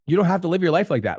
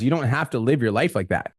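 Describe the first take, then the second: First: Repeated higher with a push on "don't"; "don't" stressed, the whole line pitched higher; emphatic repeat. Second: Said in the usual way. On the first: Real, not acted.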